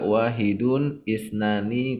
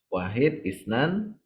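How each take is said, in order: First: The words end with their full vowel endings. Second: The words end without their final vowel endings. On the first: "Boleh juga wahidun isnani itu boleh" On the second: "Jadi diwakafkan dia"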